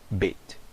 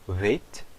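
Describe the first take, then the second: First: It starts with a full b sound. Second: It starts with a soft two-lipped v sound. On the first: "quando ele tem o dagesh, eu vou pronunciar realmente como o B" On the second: "Quando ele não tem o dagesh, eu vou pronunciar como um, um som de um V, mas é um som bilabial"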